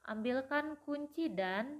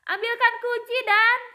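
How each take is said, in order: First: It is said in a normal reading voice. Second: It is said loudly, as a shout.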